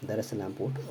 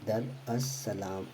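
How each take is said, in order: First: Said in the usual way. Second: Very slow, each syllable drawn out; slow spelled-out name. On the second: Shown as a demonstration. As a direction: spell the name out slowly for students. (धीरे-धीरे, हर अक्षर खींचकर) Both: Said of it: "उसको बोलते हैं हम दर".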